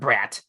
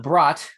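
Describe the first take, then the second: First: The vowel is the short 'a' of cat. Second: The vowel is an open 'ah' sound. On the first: The speaker calls it wrong. "not brat" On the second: The speaker calls it right. "The brat"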